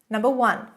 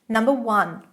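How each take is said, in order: Both takes have the same delivery.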